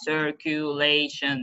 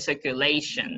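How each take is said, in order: First: Every syllable is stressed evenly. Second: One syllable is stressed more than the others. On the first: "So they would stress every syllable" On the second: "They don't have like in English"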